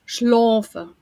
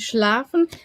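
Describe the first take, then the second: First: It is said with a Swabian dialect pronunciation. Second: It is said with a Standard German pronunciation.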